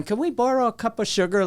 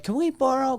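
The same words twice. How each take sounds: First: Put-on higher, old-timey country accent. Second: Said in the usual way. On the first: Neighbor kid borrowing sugar, in an old-timey country accent. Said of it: "Like, very country, old-timey". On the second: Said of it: "Like, very country".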